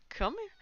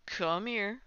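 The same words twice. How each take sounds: First: A sudden very high call; pet talk. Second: Said in the usual way. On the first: Real, not acted. Streamer calling her cat, very high chirpy call.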